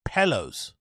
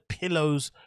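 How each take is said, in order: First: The word is said in an odd, mocking way. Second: The word is said in the ordinary way.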